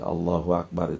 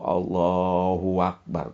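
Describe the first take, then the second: First: No added w and a short vowel after b. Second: A w sound is inserted before 'akbar'. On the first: The speaker calls it right. "Allah adalah yang maha agung" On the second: The speaker calls it wrong. "seolah-olah ada waw"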